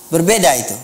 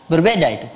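No difference in how they are said.

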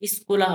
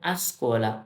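First: The word is said with an 'oo' vowel, skula. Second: The word is said with an 'o' vowel, skola. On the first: The speaker calls it wrong. "কিন্তু স্কুলা হবে না" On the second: The speaker calls it right. "এটা হবে আসকোলা"

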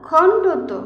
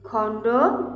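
First: The word is said smoothly as one unit. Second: The word is broken with a break before the last part.

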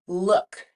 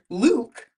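First: The vowel is short, as in book. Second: The vowel is a long ooh sound. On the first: The speaker calls it right. "We say look" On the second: The speaker calls it wrong. "we would expect those two O's together to make the sound ooh"

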